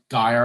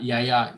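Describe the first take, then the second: First: The name begins with a hard G sound. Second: The name begins with a Y sound. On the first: It names a different, famous producer. The speaker calls it wrong. "It's better to just get Gaia out of your head" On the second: It also means grandmother in Greek. The speaker calls it right. "Yaya is how you pronounce it"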